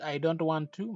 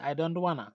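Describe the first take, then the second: First: 'Want to' is said fully as two words. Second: 'Want to' is reduced to one blended word. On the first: "au lieu de I want I don't want to" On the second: "American English da ngay dégg ñu naan ... mais I don't wanna"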